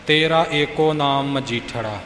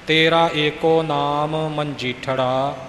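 First: The joined letters in the last word are rushed. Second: The joined letters in the last word are carefully articulated. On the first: The speaker calls it wrong. "ਇਉਂ ਆਪਾਂ ਕਾਹਲੀ ਵਿੱਚ ਬੋਲ ਜਾਂਦੇ ਹਾਂ" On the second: The speaker calls it right. "ਉਹਨਾਂ ਦੇ ਉਚਾਰਨ ਵੱਲ ਵਿਸ਼ੇਸ਼ ਧਿਆਨ ਦੇਣਾ ਪੈਂਦਾ ਹੈ"

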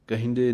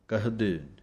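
First: The word is said as kehnde, with a nasal sound. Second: The word is said plainly as kahde, without nasalization. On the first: The speaker calls it wrong. "ਕਹਿੰਦੇ ਨਹੀਂ ਬੋਲ ਦੇਣਾ" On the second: The speaker calls it right. "ਕਹਦੇ ਕਹਿੰਦੇ ਨਹੀਂ ਬੋਲ ਦੇਣਾ"

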